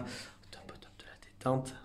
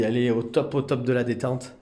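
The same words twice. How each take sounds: First: Hushed unvoiced whisper. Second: Said in the usual way. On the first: Real, not acted. Carer showing Stormy totally relaxed, soft whisper. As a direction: whisper it so the relaxed animal stays undisturbed.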